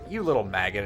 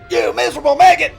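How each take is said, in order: First: It is said gently and affectionately. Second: It is yelled harshly and angrily.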